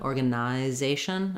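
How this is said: It has a full 'eye' vowel before '-zation'. "British English would say"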